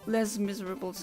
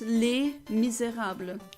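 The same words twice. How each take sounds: First: The title is said with an English-style pronunciation. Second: The title is said with a French pronunciation. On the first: The speaker calls it wrong. "It's not Les Miserables. That's not how you pronounce it in French" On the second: The speaker calls it right. "No, it's Les Miserables"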